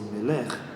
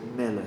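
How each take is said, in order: First: The stress is on the last syllable. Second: The stress is on the first syllable. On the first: The speaker calls it wrong. "We don't say Melech" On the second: The speaker calls it right. "say Melech"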